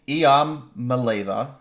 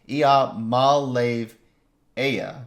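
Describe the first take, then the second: First: The surname is said with fewer syllables. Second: The surname is said with more syllables. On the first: The speaker calls it wrong. "Ia is wrong, right?" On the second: The speaker calls it right. "I've been trying really hard to pronounce that correctly"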